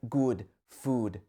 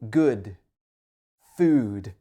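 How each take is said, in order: First: Both words use the same vowel sound. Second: The first word has a shorter, different vowel. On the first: The speaker calls it wrong. "you might say something like good food" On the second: The speaker calls it right. "these are different sounds. The uh is much shorter"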